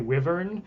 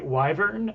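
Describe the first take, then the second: First: The first syllable sounds like "wiv". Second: The first syllable sounds like "why". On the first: "type in W I V if you say wyvern" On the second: "type in W H Y if you say wyvern"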